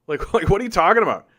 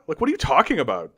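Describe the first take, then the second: First: Fast, laughing through "what are you talking about"; laughing disbelief. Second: Said in the usual way. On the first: Real, not acted. Laughs at chat's claim.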